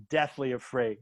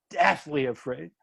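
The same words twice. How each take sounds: First: Said in the usual way. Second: "deathly" leaned on, rising at the end; stress on deathly. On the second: Real, not acted. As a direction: repeat it, leaning hard on "deathly". Repeats the phrase for emphasis.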